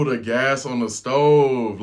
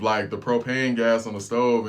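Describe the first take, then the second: First: "the gas on the stove" stretched slow and loud, leaning on "stove"; dawning realization. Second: Said in the usual way. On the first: Retold or imitated. Catching on to his friend's meaning, slow and loud on "stove". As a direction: drag out "stove" slowly as it sinks in.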